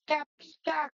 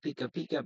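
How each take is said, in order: First: It is said in a Pikachu voice. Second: It is said in his normal voice.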